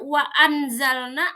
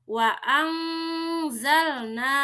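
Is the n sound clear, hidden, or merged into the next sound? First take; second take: clear; hidden. First: The n is pronounced fully and clearly. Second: The n is hidden as a soft nasal hum. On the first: The speaker calls it wrong. "Tidak dibaca" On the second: The speaker calls it right. "tapi samar nun sukunnya"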